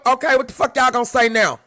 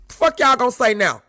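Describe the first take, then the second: First: Loud, pressing challenge to the crowd; heated challenge. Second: Louder repeat, leaning on fuck; heated challenge. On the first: Ranting at other content creators, loud and challenging. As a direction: demand an answer, fired up. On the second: Pressing the crowd a second time, loud and heated. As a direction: hit it again harder. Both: Real, not acted.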